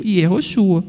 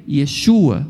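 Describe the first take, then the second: First: "Yehoshua" with four syllables, ye-ho-SHU-a; ancient Hebrew pronunciation. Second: "Yeshua" with sh, ye-SHU-a; classical Hebrew pronunciation. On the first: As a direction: say "Yehoshua", keeping the middle HO. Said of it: "o hebraico antigo". (hebraico antigo, "Yehoshua" com ho no meio) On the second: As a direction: say "Yeshua" with stressed SHU and final a. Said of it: "falar o hebraico clássico". (hebraico clássico, "Yeshua" com som de xu) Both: Shown as a demonstration.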